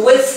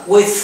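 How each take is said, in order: First: Final "with" ending in a voiced, buzzed th; first pronunciation. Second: "with" ending in a voiceless airy th; "with" with a hissed, unvoiced th at the end; second pronunciation. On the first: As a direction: draw out "with" slowly, th buzzing into a small release. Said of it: "đọc hai cách đều đúng". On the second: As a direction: say "with" slowly, finishing on breath alone. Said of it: "phát âm theo cách thứ hai". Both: Shown as a demonstration.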